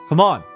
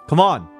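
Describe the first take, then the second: No difference in how they are said.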